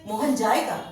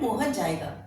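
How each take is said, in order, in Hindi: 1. "जाएगा" पर ज़्यादा ज़ोर है, जिससे यह प्रश्न जैसा लगता है। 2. यह सादे, सामान्य सुर में कहा गया है। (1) "जाएगा पर ज्यादा हमारा फोर्स हो जाता है ... प्रश्नवाचक में बदल देता है" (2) "अभी हम साधारण बोल रहे हैं"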